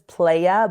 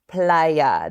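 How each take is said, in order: First: The word is pronounced as an English reading. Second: The word is pronounced with Spanish sounds. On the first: The speaker calls it wrong. "it does look like it says Playa" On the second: The speaker calls it right. "but it's Playa"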